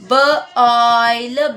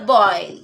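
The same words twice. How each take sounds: First: B-oil, split into b and oil; segmented. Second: Said in the usual way. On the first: Shown as a demonstration. Teacher splitting the word for students. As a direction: break it into b and oil.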